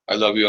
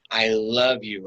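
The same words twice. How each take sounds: First: It is said flatly, as a rote recitation. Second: It is said with warm, deliberate feeling. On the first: The words are recited without meaning them. The speaker calls it wrong. "Not just rote" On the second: The speaker means what is said. The speaker calls it right. "you heard the intentionality with my voice"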